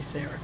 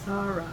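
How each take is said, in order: First: The name is said with the usual English pronunciation. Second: The name is said with a Hebrew pronunciation. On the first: "that's the way we always say it" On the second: "the Hebrew pronounced it"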